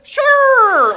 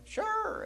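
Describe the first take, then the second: First: Very high, loud drawn-out yelp; hammed-up frantic agreement; panicked "sure". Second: Very high, soft "sure"; tiny high-pitched acted agreement; squeaked reply. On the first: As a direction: squeal it in mock panic. Acts out panicked answer. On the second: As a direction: squeak it out small in mock fear. Acts out timid squeaked answer.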